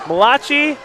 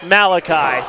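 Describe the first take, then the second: First: Malachi said mah-LAH-chee; Malachi with a hard ch, wrong; mispronounced Malachi. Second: Malachi said MAL-uh-kye; Malachi with stress on MAL, ending kye; corrected Malachi. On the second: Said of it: "third time is the charm". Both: Shown as a demonstration.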